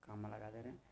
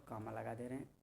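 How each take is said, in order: Both takes have the same delivery.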